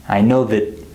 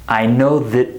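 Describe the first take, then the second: The two takes are said the same way.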